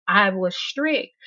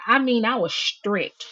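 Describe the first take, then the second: First: "strict" slowed and weighted, falling firmly; stress on strict. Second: Said in the usual way. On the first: Shown as a demonstration. Host insists to viewers she meant "strict". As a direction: lean hard on "strict" to mean it. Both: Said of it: "When I say strict".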